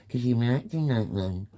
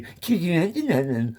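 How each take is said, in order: First: Said in the usual way. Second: Higher, louder whiny 'Cause you acting like that; childish mocking voice. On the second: Shown as a demonstration. Mocking society's reply to him, childish put-on voice. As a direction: mimic the sneering grown-up talking down to a kid. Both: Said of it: "You literally put that voice on".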